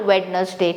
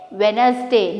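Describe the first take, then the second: First: Wednesday with every letter, WED-NES-day, slowly; mock wrong WED-NES-day. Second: Wednesday said WENZ-day, lower, d silent; teacher's model WENZ-day; correct Wednesday. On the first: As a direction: sound out the d and e as the mistake. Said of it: "not Wednesday". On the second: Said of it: "you have to say". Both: Shown as a demonstration.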